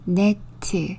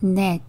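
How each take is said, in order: First: The word is said slowly, syllable by syllable. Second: The word is said quickly as one syllable.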